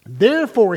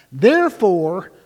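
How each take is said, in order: First: Said in the usual way. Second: Therefore drawn out slowly with weight; slow down on Therefore to open the command; solemn scripture emphasis; slow weighty therefore. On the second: Shown as a demonstration. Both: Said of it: "really think about that".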